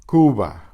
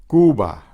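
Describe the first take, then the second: The two takes are said the same way.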